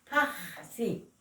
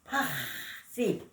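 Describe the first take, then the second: No difference in how they are said.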